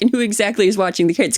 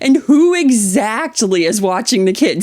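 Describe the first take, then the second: First: It is said in a plain, neutral tone. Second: It is said in a pointed, snarky tone. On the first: The question is a simple request for information. The speaker calls it wrong. "You can't just be like" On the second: The question is a disrespectful accusation. The speaker calls it right. "you have to say it in that voice"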